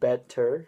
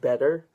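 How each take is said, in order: First: The middle T is clearly and crisply pronounced. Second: The middle T is softened, not clearly released. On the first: The speaker calls it right. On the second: The speaker calls it wrong.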